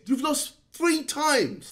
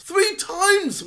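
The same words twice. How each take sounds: First: Said in the usual way. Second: Three jumps higher; stress on Three. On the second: Real, not acted. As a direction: hammer the word Three. Repeated three times.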